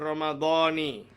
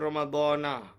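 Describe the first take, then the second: First: The word ends with an 'i' vowel. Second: The word ends with an 'a' vowel. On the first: The speaker calls it right. "dia dibaca Ramadhani" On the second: The speaker calls it wrong. "Dia tak dibaca Ramadhana"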